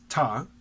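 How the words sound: The first syllable is dropped, leaving only 'ta'.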